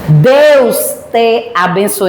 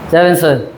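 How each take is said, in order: First: The blessing is said clearly, with every syllable pronounced. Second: The blessing is mumbled quickly, with syllables swallowed. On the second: "Bem resumido"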